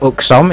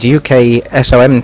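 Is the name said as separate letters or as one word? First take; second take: one word; separate letters. First: It is said as a single word. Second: Each letter is said separately.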